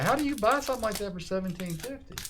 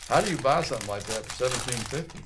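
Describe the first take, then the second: First: It is said in a normal voice. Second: It is said in a lowered voice.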